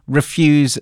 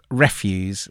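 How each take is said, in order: First: The stress is on the second syllable. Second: The stress is on the first syllable. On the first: The speaker calls it right. "I'm assuming refuse" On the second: The speaker calls it wrong. "not refuse"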